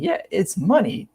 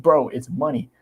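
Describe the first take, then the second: First: Higher, slow, sarcastic echo of his line; mocking repeat, slow and high. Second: Said in the usual way. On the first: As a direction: throw his own words back at him, slowly. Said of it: "I'm like". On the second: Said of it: "When he said".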